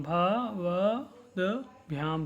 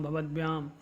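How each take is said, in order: First: भवद्भ्याम split slowly into भ-वद्-भ्याम; slow syllable by syllable. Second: Said in the usual way. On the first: Shown as a demonstration. Teacher shows students the pronunciation, slow and syllabic. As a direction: spell out भवद्भ्याम sound by sound, slowly. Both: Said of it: "इस प्रकार से आपको इन शब्दों का उच्चारण करना है".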